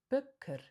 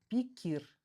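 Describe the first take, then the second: First: The vowels are thinner, softer, reduced sounds. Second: The vowels are full, plain 'ee' sounds. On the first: The speaker calls it right. "звучит тоньше, нежнее" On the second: The speaker calls it wrong. "не пикир"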